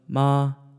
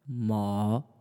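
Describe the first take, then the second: First: The pitch stays high and level. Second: The pitch dips low, then rises slightly. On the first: "So first tone" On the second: "third tone basically just goes low and then it rises up a little bit"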